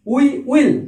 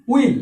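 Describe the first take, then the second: First: "We will" as two distinct words; two separate words. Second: "will" as we'll, one syllable; one-word contraction. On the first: Teacher showing the full form, "We will" pronounced as two words. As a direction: sound both "We" and "will" in full. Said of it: "দুবার উচ্চারণ করছি". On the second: Teacher showing the contraction, "will" said in one go as we'll. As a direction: merge we and will into a single "will". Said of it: "আমরা একবারে সেরে দেব, উচ্চারণ করব". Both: Shown as a demonstration.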